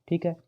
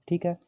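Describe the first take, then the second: The two takes are said the same way.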